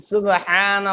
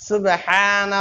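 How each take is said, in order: The two takes are said the same way.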